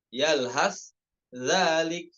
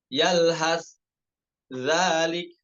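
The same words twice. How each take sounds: The two takes are said the same way.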